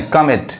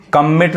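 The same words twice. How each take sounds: First: कमिट with only one m sounded; कमिट without doubling the m; single-m pronunciation. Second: कमिट with both m's sounded; कमिट wrongly split on a doubled m; wrong double-m pronunciation. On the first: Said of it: "एक ही म पढ़ा रहा है". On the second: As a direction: say कमिट as kam-mit, doubling the m. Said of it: "कमिट नहीं". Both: Shown as a demonstration.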